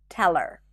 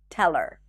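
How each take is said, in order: Both takes have the same delivery.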